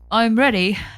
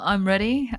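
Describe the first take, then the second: First: It is said in a British accent. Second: It is said in an attempted Australian accent.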